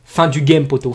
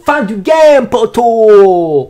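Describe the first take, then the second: First: Said in the usual way. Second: Loud, high cry with stretched vowels; drawn-out shout. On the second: Acted. Capping the troll's punchline for viewers, drawn-out triumphant shout. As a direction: belt it out like a final victory call.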